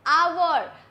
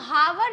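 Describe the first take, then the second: First: The word starts with a vowel, no h. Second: The word starts with an audible h sound. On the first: The speaker calls it right. "हम जब इसे बोलते हैं तो कैसे बोलते हैं आवर" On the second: The speaker calls it wrong. "हम हावर नहीं बोलते"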